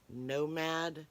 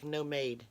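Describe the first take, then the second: First: It sounds like the English word nomad. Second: It sounds different from the English word nomad. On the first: The speaker calls it wrong. "It's not Nomad" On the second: The speaker calls it right. "It's like Nomade"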